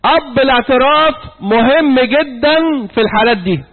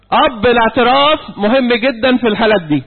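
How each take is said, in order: First: "أب الاعتراف مهم جدًا" said slowly, weight on "الاعتراف"; slow emphatic repeat. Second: Said in the usual way. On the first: Shown as a demonstration. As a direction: lean hard on "الاعتراف", drawn out. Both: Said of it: "أقول حاجة مهمة جدًا".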